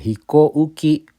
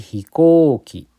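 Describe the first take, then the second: First: A separate u sound follows the o. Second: No separate u sound follows the o. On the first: The speaker calls it wrong. "bukan hikouki" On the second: The speaker calls it right. "tapi hikoki"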